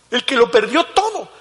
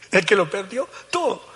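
First: Higher, louder repeat. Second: Said in the usual way. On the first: Real, not acted. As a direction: push it up high and loud. Preacher repeats line louder.

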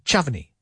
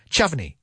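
Both takes have the same delivery.

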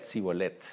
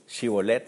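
First: "Sibolet" said with a plain s at the start, no sh. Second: "Shibolet" said with a clear sh at the start. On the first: Preacher gives the failed password "Sibolet" with s. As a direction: start "Sibolet" with a hard s, the way the Ephraimites said it. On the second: Preacher says the password "Shibolet" with sh. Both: Shown as a demonstration. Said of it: "Shibolet literalmente significa corriente de agua".

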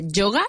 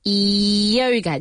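First: YOGA with a hard j, "JO-ga", rising as a question; mistaken Spanish-style pronunciation. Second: YOGA with a long, gliding "ee-yo" start; correct English pronunciation. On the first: Teacher shows learners the mistake, YOGA wrongly said as "joga". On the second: Teacher models the word for learners, correct English pronunciation of YOGA. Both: Shown as a demonstration.

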